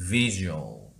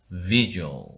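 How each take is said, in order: No difference in how they are said.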